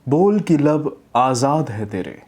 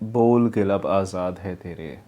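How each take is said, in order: First: It is read with a weighty pause and energy. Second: It is read flatly with low energy. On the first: The speaker calls it right. "यहाँ पे pause लिया" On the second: The speaker calls it wrong. "मतलब इस तरह से डल जा रहा है"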